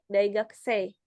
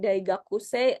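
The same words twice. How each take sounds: First: The u sound is almost silent. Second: The u sound is clearly pronounced. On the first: The speaker calls it right. "ini lebih kayak Daigakusei. U-nya kecil banget" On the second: The speaker calls it wrong. "nggak seperti Daigakusei"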